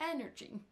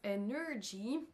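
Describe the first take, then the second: First: The stress is on the first syllable. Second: The stress is on the second syllable. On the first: The speaker calls it right. "c'est la première syllabe qui va ressortir plus que les autres" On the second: The speaker calls it wrong. "il accentue sur la deuxième syllabe"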